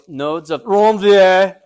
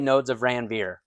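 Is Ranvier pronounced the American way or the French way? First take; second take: French; American. First: Ranvier is pronounced with a French accent. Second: Ranvier is pronounced with an American accent. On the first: The speaker calls it right. "You got to try your best French" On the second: The speaker calls it wrong. "then you just sound too American"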